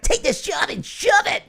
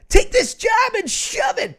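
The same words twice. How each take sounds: First: High cartoon character voice; Digimon voice. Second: Very high, loud defiant shout; shouted job quitting. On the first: Shown as a demonstration. Host quits a fan's job in Digimon voice. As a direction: shout it defiantly as a high-pitched cartoon hero. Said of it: "I'll do it in the Digimon voice". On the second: Pretend. Host quits a fan's job for them, shouting. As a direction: yell it out as a hammed-up resignation.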